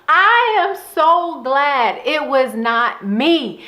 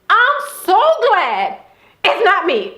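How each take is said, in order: First: Each word of "I am so glad it was not me" drawn out slowly and stressed; slow emphatic. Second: Relieved private glee, half laughing; gleeful inner thought. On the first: Real, not acted. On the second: Retold or imitated. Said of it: "going through my head was".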